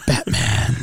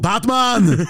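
First: It is said in a low, gravelly, whispery voice. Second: It is said with a heavy Austrian-style accent. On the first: "How'd you like my Batman?" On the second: "Do Arnold"

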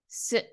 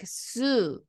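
First: The final u is nearly silent. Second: The final u is fully voiced. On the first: The speaker calls it right. "We say su" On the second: The speaker calls it wrong. "we don't say like su"

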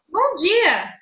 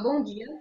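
First: It is friendly and ends on a high pitch. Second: It is serious and ends on a low pitch.

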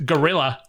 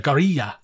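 First: The R is a plain English R. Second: The R is rolled in a Spanish style. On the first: "as us ignorant whiteys say" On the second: "that sort of Latin tongue roll that they do"

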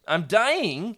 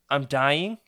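First: It is said in a full, normal voice. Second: It is said in a small, weak voice. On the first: The speaker calls it wrong. "Oops, let me try that again" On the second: The speaker calls it right. "you ask in a small voice"

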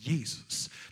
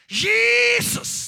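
First: It is shouted loudly. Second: It is shouted even more loudly.

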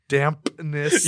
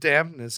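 First: The P sound is clearly pronounced. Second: The P sound is barely heard. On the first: The speaker calls it right. "it didn't sound like that" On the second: The speaker calls it wrong. "You did not enunciate that P in there too well"

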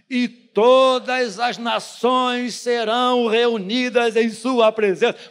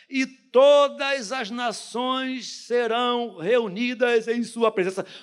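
First: It is shouted loudly. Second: It is read at normal volume.

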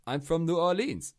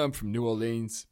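First: It is said in an odd, put-on accent. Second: It is said in the speaker's normal accent.

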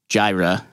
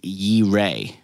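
First: The word begins with a J sound. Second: The word begins with a Y sound. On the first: The speaker calls it wrong. "the word is not Jireh in Hebrew" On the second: The speaker calls it right. "It's Yireh"

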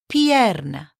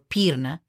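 First: The first vowels are 'i' then 'e', both voiced. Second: The first vowel is a plain 'i' sound. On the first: The speaker calls it right. "Both of them. You have to say them both" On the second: The speaker calls it wrong. "You don't say perna or pirna"

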